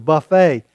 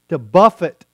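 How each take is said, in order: First: The word ends with an 'ay' sound. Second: The word ends with an 'it' sound. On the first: To eat a meal served from a spread of dishes. The speaker calls it wrong. "has mispronounced that as we are to buffet our body" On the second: To strike or discipline the body. The speaker calls it right. "Paul told us to buffet our body"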